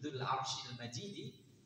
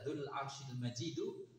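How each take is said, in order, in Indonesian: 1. Kata terakhir berakhir dengan vokal i. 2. Kata terakhir berakhir dengan vokal u. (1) "Kalau dibaca Majidi, ... maka kembalinya ke Arsh" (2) "Kalau dibaca Dzul Arsyil Majidu, itu kembalinya ke ke Dzu"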